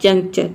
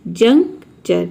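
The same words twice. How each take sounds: First: Said in the usual way. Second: Slow demo word. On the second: Shown as a demonstration. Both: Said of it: "एक साथ juncture".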